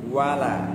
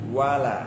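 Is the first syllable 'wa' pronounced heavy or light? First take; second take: light; light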